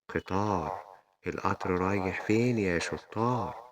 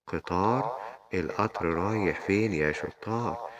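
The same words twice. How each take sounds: The two takes are said the same way.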